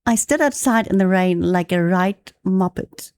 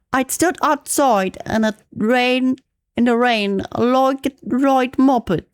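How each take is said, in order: First: Said in the usual way. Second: Put-on amateur British accent slipping toward Australian; British accent, drifts Australian. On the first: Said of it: "Improve your British accent by reading". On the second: Practicing a British accent from a reading text, amateur British accent. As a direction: read it in a shaky attempt at British English, sounding Aussie. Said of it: "That's a bit of Australian accent".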